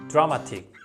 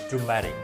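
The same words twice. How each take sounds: First: It is said with a Korean-style pronunciation. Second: It is said with a native English pronunciation. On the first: The speaker calls it wrong. "that's a Korean way to say" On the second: The speaker calls it right. "You are supposed to say dramatic"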